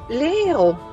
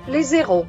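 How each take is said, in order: First: No z sound links les to héros. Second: A z sound links les to héros. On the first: The speaker calls it right. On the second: The speaker calls it wrong.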